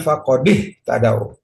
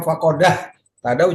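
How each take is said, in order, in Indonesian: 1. Bunyi d diikuti vokal i. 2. Bunyi d diikuti vokal a. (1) "harus dikasih harokat kasroh" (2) "juga tidak"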